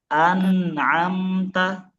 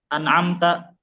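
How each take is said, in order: First: The word is drawn out with flowing nasals. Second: The word is said quickly and clipped. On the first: The speaker calls it right. "harus mengalir" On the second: The speaker calls it wrong. "nggak cepat"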